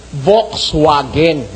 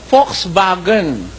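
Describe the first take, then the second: First: "Volkswagen" slow and low, with English V and W; as spelled. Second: "Volkswagen" slowly, as Folks-vagen; German pronunciation. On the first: Preacher showing the wrong reading to listeners, spelling pronunciation. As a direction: sound out "Volkswagen" letter for letter, w as in water. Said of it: "As it is spelled". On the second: Preacher showing how Germans say it, German pronunciation. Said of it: "pronunciation diyan ng mga mismong Aliman". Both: Shown as a demonstration.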